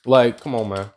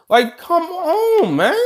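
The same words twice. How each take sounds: First: Said in the usual way. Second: Much higher, slow exasperated plea; mock exasperation at All Might. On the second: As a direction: stretch it out in mock disbelief. Exasperated high drawn-out version.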